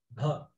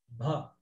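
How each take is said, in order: The two takes are said the same way.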